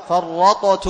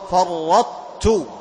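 First: فرطت with the ط bounced before ت, louder; mock wrong reading of فرطت; wrong qalqala. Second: فرطت very slow, ط merged into ت with its heaviness kept; slow, emphatic فرطت; merged taa. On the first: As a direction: demonstrate the error: separate ط and ت in فرطت. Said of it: "لا، خطأ". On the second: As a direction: say فرطت assimilating ط into ت smoothly. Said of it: "فتدغم الطاء في التاء". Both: Shown as a demonstration.

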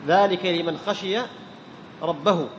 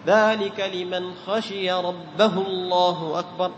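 First: Said in the usual way. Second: Very slow recitation, ربه joins الله as "rabbahu-llah"; drawn-out chant, short u on ربه into الله; linking vowel dropped. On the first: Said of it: "إذا وصلت تحذف". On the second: Shown as a demonstration. Teacher demonstrates joining to takbir, linking vowel dropped. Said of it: "تحذف الصلة".

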